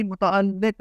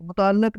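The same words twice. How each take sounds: First: متعلق said as mu-ta-al-liq; zer under laam. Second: متعلق said as mu-ta-laq; common mispronunciation. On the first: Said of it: "لام کے نیچے زیر ہے". (متعلق میں لام کے نیچے زیر) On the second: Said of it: "متعلق نہیں". (متعلق میں لام پر زبر) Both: Shown as a demonstration.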